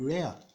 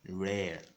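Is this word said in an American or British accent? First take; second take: British; American. First: It is said with a British accent. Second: It is said with an American accent. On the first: "That's for the British" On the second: "the Americans would rather pronounce it as"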